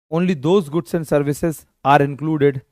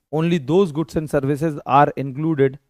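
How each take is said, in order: The two takes are said the same way.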